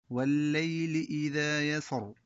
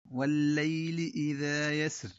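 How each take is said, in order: First: يسر stopped in a sung recitation tune; chanted stop. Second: يسر stopped without the final i; pausal form. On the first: Teacher chants the second stop on يسر. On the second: Teacher demonstrates the stop on يسر. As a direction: close يسر on the ر. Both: Shown as a demonstration. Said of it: "طريقة التلقين هكذا".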